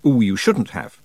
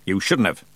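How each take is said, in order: First: Mock-delighted gift thanks; polite surprise. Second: Growled. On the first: Imagined host thanking a visitor for a present, politely surprised. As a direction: coo it as politeness expects. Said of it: "supposed to be surprised". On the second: A narrator's reading. Granny seeing the kitten in the basket, growling. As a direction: grumble the thanks with no delight. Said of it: "growled the voice of Granny".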